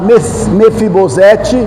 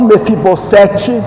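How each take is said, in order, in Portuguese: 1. A consoante do meio soa como z. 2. A consoante do meio soa como s. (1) "se fala Mefibosete ... porque o S entre vogal se lê Z" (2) "e não Mefibosete"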